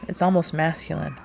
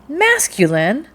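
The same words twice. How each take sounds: First: Said in the usual way. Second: High, loud, drawn-out MASCULINE rising in disbelief; incredulous echo. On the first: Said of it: "Your tone, your expression". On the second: A narrator's reading. Rachel repeats the captain's word back to him, incredulous. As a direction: throw MASCULINE back as an astonished question.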